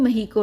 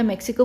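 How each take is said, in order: First: The middle consonant is an h sound. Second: The middle consonant is a ks sound. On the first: This is how the country's own people say it. The speaker calls it right. "वो महीको है" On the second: This is how most of the world says it. The speaker calls it wrong. "पूरी दुनिया मैक्सिको बोलती है"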